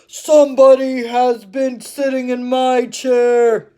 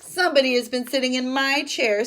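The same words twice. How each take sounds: First: The voice is big and deep. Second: The voice is medium in size and pitch. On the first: The largest bear is speaking. "said the great big bear" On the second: The middle-sized bear is speaking. "in her middle-sized voice"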